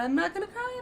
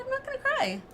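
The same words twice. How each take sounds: First: Holding back tears. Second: Much higher, strained, fighting back tears; voice breaking. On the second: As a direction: let the voice crack on cry. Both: Real, not acted. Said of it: "on the verge of tears right now".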